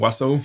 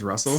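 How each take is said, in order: First: The name begins with a W sound instead. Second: The name begins with a clear R sound. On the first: "my brother couldn't say his R's" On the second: "his name's Russell"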